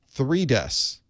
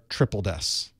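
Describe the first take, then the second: First: The first part is read as 'three'. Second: The first part is read as 'triple'. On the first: The speaker calls it wrong. "I may not be saying that properly" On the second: The speaker calls it right. "There, I said it right"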